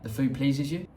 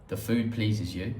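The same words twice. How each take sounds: First: The pitch rises at the end like a question. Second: The pitch falls at the end like a statement. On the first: It asks whether you like the food. "but with intonation it's like" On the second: It states a plain translation. "How that directly translates is"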